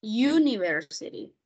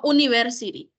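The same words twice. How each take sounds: First: "University" starting with a "you" sound, "yoo-niversity"; correct pronunciation. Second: "university" with a bare "oo" at the start and no y sound; wrong pronunciation. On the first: Teacher models the right form for the students. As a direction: begin "University" with a clear y glide. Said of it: "no university". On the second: Teacher shows students the mistake to avoid. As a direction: drop the y: "oo-niversity". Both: Shown as a demonstration.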